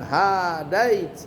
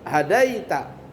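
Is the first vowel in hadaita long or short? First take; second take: long; short. First: The first vowel is drawn out long. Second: The first vowel is kept short. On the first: The speaker calls it wrong. "Bukan hadait" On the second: The speaker calls it right. "Haknya enggak panjang"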